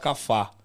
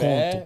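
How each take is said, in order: First: The final vowel is an 'a' sound. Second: The final vowel is an 'e' sound. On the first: The speaker calls it wrong. "eu falava cafá" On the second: The speaker calls it right. "em vez de falar café"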